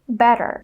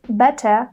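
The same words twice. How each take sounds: First: The middle consonant is a quick D sound. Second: The middle consonant is a clear T sound. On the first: The speaker calls it right. "a T becomes a fast D" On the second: The speaker calls it wrong. "we don't say better"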